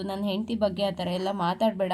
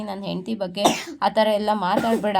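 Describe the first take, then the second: First: Said in the usual way. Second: A bit louder, leaning on ಥರ with a falling end; ಥರ pressed harder, sentence falls to a stern close; firm repeated warning. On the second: Acted. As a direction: repeat the warning more firmly, stressing ಥರ. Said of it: "ನಾನ್ ಮತ್ತೆ ಹೇಳ್ತಾ ಇದ್ದೀನಿ".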